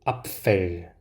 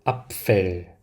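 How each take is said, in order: The two takes are said the same way.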